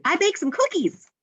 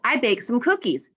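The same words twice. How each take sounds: First: High, excited announcement; excited exclamation. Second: Said in the usual way. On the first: Acted. Teacher showing the exclamation-mark version, excited. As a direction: exclaim it, pitch jumping well up. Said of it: "could end it with an exclamation mark". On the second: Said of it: "She's just saying it, it's nothing exciting".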